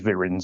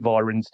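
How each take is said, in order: First: The first vowel sounds like in 'vim'. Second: The first vowel is not like in 'vim'. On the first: This is the traditional way to say it. The speaker calls it right. "the correct way is is Virens. It's like um a bit like Vim" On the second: This is how most people say it. The speaker calls it wrong. "Most people pronounce it Virens"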